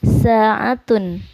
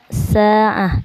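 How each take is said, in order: First: The word ends with a 'tun' syllable. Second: The word ends with a soft 'h' sound.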